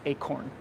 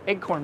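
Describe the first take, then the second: First: The word begins with a long ay sound. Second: The word begins with a sound like egg. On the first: The speaker calls it right. "so I try to pronounce the hard C" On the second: The speaker calls it wrong. "Someone once made fun of the way I say that, like I was saying egg corn"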